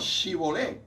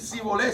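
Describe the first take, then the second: First: The word begins with an sh sound. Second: The word begins with a plain s sound. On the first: This marks the speaker as an outsider. The speaker calls it wrong. "la pronunciaban como S H" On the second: This is how the speaker's own group says it. The speaker calls it right. "no pronunciaban la S correctamente"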